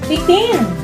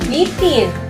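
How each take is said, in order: First: The stress falls on the last syllable. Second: The stress falls on the first syllable. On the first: The state of dangling or being lifted. "kung ito ay ating bibigkasin ng mabilis" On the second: Anything that is hanging. "Ito ay nasa diing malumay"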